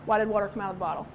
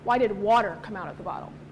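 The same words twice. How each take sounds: First: The stress falls on the words come out. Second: The stress falls on the word water. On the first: It asks what made the liquid leave the bottle. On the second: It asks why this liquid, not another, came out.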